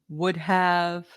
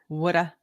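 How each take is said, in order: First: It is said as two full words, would have. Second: It is reduced to one blended word, woulda.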